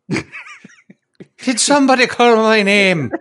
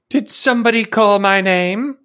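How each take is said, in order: First: It is said in a put-on Irish accent. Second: It is said without an Irish accent.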